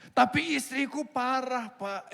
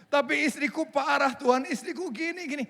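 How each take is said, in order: First: Higher, slow pleading complaint, addressing God as Pak; husband begging, drawn out; whining husband. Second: Higher pleading complaint, now addressing God as Tuhan; husband whining about his wife, corrected. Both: Pretend.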